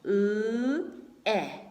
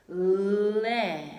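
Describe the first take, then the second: First: The two sounds are said separately with a break. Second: The two sounds glide together quickly into one. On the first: The speaker calls it wrong. "But that's a little bit rough" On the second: The speaker calls it right. "Now let's slide it"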